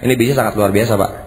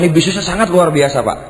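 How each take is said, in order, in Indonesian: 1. Diucapkan dengan intonasi yang datar dan kurang bersemangat. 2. Diucapkan dengan intonasi yang hidup dan bersemangat.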